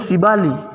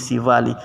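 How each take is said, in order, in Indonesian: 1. Konsonan tengahnya bunyi b. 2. Konsonan tengahnya bunyi v. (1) "bukan sibali" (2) "pengucapannya kemudian akan berubah menjadi sivali"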